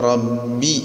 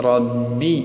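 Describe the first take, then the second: The two takes are said the same way.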